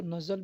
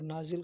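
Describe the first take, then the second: First: नज़ल with short vowels, "nazal"; variant pronunciation. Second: नाजिल with long first vowel, "naazil"; variant pronunciation. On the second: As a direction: say नाजिल as "NAA-zil", ending in short i. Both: Shown as a demonstration. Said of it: "तो भी समझ जाएगा".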